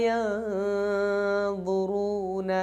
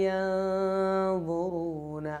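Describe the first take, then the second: Both takes have the same delivery.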